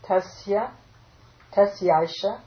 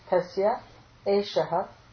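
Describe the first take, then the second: First: The words are fused into one joined form. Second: The words are split apart into separate words.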